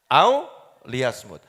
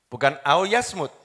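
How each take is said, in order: First: Au liyasmut said slowly with the li clearly in; slow corrective au liyasmut; correct pronunciation. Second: Au yasmut said without the li, as the wrong version; the mistaken au yasmut, read as a slip. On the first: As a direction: spell out au liyasmut carefully and slowly, li included. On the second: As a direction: au yasmut, dropping the li before yasmut. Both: Shown as a demonstration.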